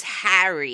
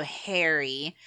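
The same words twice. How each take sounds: First: Harry with a short flat "a" as in hat; British Harry. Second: Harry with an American "hair" vowel, slowly. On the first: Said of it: "the way they pronounce Harry". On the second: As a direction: say Harry as hairy. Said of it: "the way they pronounce their R's". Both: Shown as a demonstration.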